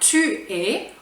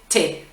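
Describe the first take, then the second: First: The 'u' of 'tu' is pronounced separately. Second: The 'u' is dropped, giving a single syllable.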